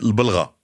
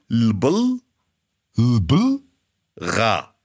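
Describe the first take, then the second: First: The word is said at normal speed. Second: The word is said slowly, split into parts.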